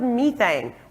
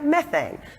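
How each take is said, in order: First: It is said in a non-American accent. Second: It is said in an American accent.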